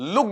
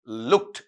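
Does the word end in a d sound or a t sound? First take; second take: d sound; t sound. First: The word ends with a d sound. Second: The word ends with a t sound. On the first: The speaker calls it wrong. "डे sound बना देता है, जबकि डे नहीं बोलेगा" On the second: The speaker calls it right. "आपका टे बोलेगा"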